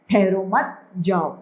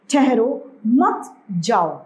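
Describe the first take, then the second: First: ठहरो मत run together, pause, then जाओ; group ठहरो मत slowly, break before जाओ; pause after मत. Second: Slow ठहरो, clear break, then मत and जाओ; pause after ठहरो. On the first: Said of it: "इसका मतलब है जाने दिया जाए". (मत के बाद विराम) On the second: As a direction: set ठहरो apart before मत जाओ. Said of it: "इसका मतलब है नहीं जाने दिया जाए". (ठहरो के बाद विराम, धीरे-धीरे) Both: Shown as a demonstration.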